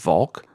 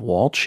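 First: The surname begins with a V sound. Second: The surname begins with a W sound. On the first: This is the name's true pronunciation. The speaker calls it right. "if I was to pronounce my name correctly" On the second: This is the form the voice assistant recognizes. The speaker calls it wrong. "is how I say it to Siri"

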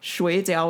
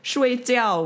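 First: The tones are those of the word for dumplings. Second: The tones are those of the word for sleep. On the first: The word means dumplings. "which is like dumplings" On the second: The word means to sleep. "which is sleep"

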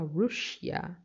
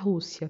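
First: The word has an English pronunciation. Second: The word has a Portuguese pronunciation. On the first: The speaker calls it right. "mas em inglês se fala Russia" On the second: The speaker calls it wrong. "Não se fala Rússia"

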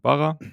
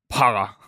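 First: It starts with a soft, Austrian-style b sound. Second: It starts with a crisp, German-style p sound.

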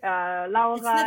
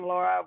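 First: The name is said with a German pronunciation. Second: The name is said with an American pronunciation. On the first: "German pronunciation" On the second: "More American"

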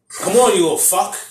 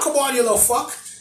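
First: It is said in the speaker's plain accent. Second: It is said in an Australian accent.

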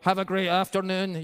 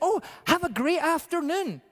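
First: It sounds scripted and insincere. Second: It sounds warm and sincere.

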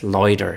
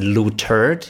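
First: The stress falls on the first syllable. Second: The stress falls on the last syllable. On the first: The speaker calls it right. "it's Loitered" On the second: The speaker calls it wrong. "with an emphasis on turd"

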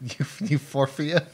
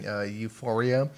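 First: The word has an extra f sound inserted. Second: The word is said without an extra f sound. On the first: The speaker calls it wrong. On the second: The speaker calls it right.

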